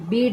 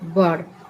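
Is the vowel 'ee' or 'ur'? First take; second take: ee; ur. First: The vowel is an 'ee' sound. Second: The vowel is an 'ur' sound. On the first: The speaker calls it wrong. "इसे हम बीड नहीं कहेंगे" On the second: The speaker calls it right. "इसका उच्चारण क्या होगा, बर्ड"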